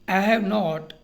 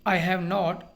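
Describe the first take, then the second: No difference in how they are said.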